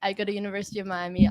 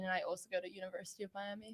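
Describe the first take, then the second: First: Said up, into the mic, fast; closer to the mic. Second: Mumbled softly, away from the mic; too quiet. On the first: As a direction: repeat it louder so the chat hears. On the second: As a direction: trail off under your breath, fast. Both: Real, not acted. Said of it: "Speaking to the mic a little bit".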